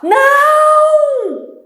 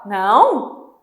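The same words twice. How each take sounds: First: It is shouted urgently, in an exaggerated way. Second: It sounds like a doubtful, confirming question. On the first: The speaker is warning of danger. "Aquele jeito bem exagerado" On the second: The speaker is checking whether something is so. "perguntar assim, meio confirmando"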